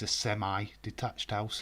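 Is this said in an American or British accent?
American. It is said in an American accent.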